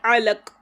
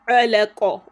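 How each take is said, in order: First: The final q stops flat with no bounce. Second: The final q is released with a short bouncing vowel. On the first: The speaker calls it wrong. "and not alaq" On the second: The speaker calls it right. "that is why we say alaqa"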